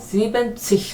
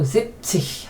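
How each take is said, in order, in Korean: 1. 끝소리 앞에 온전한 '-ben' 음절이 나옵니다. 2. 끝소리 바로 앞에 짧은 'zip'이 옵니다. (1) "지벤치 하면 너무 길어지고 뭔가 지루하다" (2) "N을 빼고 zip치 하면 뭔가 상당히 그 스마트한 느낌 든다"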